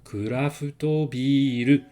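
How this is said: It is said with Japanese syllables and vowels. The speaker calls it right. "prononcez-les à la japonaise"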